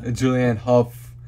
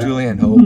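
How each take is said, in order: First: "Hough" pronounced huff. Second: "Hough" pronounced like ho. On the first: Host repeats the co-host's correction, "Hough" said as huff. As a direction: say "Hough" with short u and final f. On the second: Host picks the reading of the name they like better, "Hough" like ho. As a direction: say "Hough" with a long o, no f. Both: Shown as a demonstration. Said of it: "I like [name] better".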